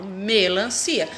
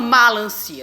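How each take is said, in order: First: The first syllable has an 'e' vowel. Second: The first syllable has an open 'a' vowel. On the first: The speaker calls it right. "eu falo melancia" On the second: The speaker calls it wrong. "Eu não falo malancia"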